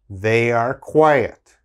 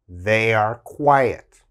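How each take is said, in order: The two takes are said the same way.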